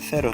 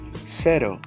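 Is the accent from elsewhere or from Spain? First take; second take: Spain; elsewhere. First: It is said in an accent from Spain. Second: It is said in an accent from outside Spain.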